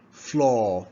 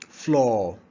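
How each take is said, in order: Both takes have the same delivery.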